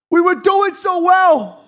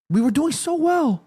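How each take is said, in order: First: High, drawn-out wail of frustration; loud, slow, high-pitched lament; anguished shout. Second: Plaintive lament. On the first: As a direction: shout it in despair, stretching the words. Lamenting team's lost lead, louder. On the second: Lamenting team's lost lead. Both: Real, not acted.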